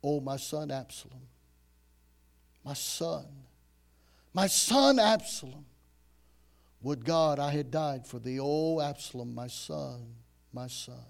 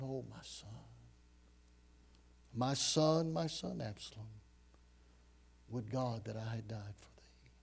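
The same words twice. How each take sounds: First: King's lament. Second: Hushed, broken whisper of grief; grieving cry. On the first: King David mourning his son, swelling then fading. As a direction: mourn aloud as a grieving father. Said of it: "thus he said". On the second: David grieving over dead Absalom, softer, whispered lament. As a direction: whisper it like a father who lost his son. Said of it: "he's crying out in great emotion". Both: Acted.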